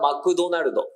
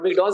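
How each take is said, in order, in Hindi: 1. यह जापानी उच्चारण में बोला गया है। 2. यह अंग्रेज़ी उच्चारण में बोला गया है।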